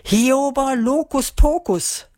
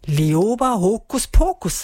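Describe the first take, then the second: First: Slow, high incantation with swapped initials, "Hioba Lokuspokus"; drawn-out slip of the tongue on "Hioba Lokuspokus"; botched spell. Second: Slow incantation, "Lioba Hokuspokus" with its proper first sounds; drawn-out spell "Lioba Hokuspokus"; intended magic spell. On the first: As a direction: intone "Hioba Lokuspokus", H and L switched. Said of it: "versprach sie sich und sagte stattdessen". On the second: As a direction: intone "Lioba Hokuspokus" slowly, L in Lioba, H in Hokuspokus. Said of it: "sagen, aber leider versprach sie sich". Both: A narrator's reading.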